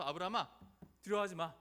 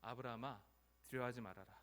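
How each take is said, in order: First: Loud, firm command; God's voice. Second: Low, calm divine reassurance; God's voice. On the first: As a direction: call out insistently to someone frightened. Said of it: "하나님께서 처음 찾아와서". (크고 단호하게) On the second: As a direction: speak gently down to a frightened servant. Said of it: "하나님께서 처음 나타나서 이렇게". (낮고 차분하게) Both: Acted.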